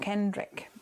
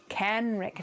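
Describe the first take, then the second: First: The name is said with a D sound. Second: The name is said without a D sound. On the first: The speaker calls it wrong. "The D sneaks in with my American accent" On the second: The speaker calls it right. "Kenrick, not Kendrick"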